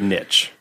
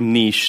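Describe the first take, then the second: First: The vowel is a short 'i' sound. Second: The vowel is a long 'ee' sound. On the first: This is not the Canadian pronunciation. The speaker calls it wrong. "not niche" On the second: This is the Canadian pronunciation. The speaker calls it right. "And also niche"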